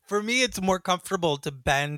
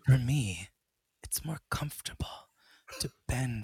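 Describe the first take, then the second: First: It is said in a plain, ordinary way. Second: It is said in a sexy, seductive way.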